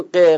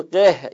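First: ق as a single bare sound, no final h; ق clipped short with no ending breath; wrong bare form. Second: قه with an audible breathy h at the end; قه, let the final ه breathe out; correct with pausal h. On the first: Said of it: "ما نمیگیم ق". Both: Shown as a demonstration.

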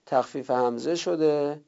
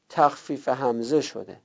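The two takes are said the same way.

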